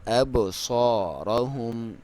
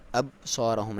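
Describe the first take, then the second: First: ابصارہم with a bouncing echo on the ba; qalqala on ba. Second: ابصارہم said with a flat ba; wrong, no echo on ba. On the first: Teacher recites the right way with qalqala. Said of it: "با کے اوپر کلکلا کریں گے". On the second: Teacher shows the wrong way without qalqala. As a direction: let the ba in ابصارہم fall dead. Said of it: "ابصارہم نہیں کریں گے". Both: Shown as a demonstration.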